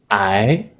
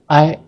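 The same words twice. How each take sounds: First: The word is said with the second tone. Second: The word is said with a non-second tone. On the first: It is the word meaning to suffer something bad. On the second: It is the word meaning next to, or one by one.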